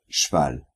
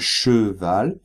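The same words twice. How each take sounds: First: The e in the first syllable is dropped. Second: The e in the first syllable is pronounced.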